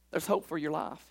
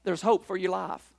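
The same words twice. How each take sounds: First: Softer repeat. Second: Said in the usual way. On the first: Shown as a demonstration. Paul assuring the jailer, softly repeated. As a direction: repeat it much softer, gently. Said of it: "repeated softer". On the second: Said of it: "repeated line".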